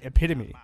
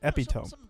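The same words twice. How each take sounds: First: It is said in the standard way. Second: It is said like 'EpiPen' plus 'tome'. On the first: The speaker calls it right. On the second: The speaker calls it wrong.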